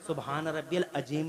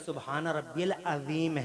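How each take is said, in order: First: The last word is pronounced carelessly. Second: The last word is pronounced carefully. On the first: It fails to praise God as intended. The speaker calls it wrong. "लफ्ज नहीं है" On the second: It praises God as mighty. The speaker calls it right. "बल्कि ... है"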